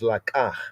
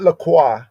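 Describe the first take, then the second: First: The k sound is plain, without a glide. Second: A w glide follows the k sound. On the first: The speaker calls it right. "This is la kah" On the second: The speaker calls it wrong. "Not LaCroix ... they add in a U vowel"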